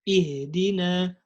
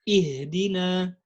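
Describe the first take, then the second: No difference in how they are said.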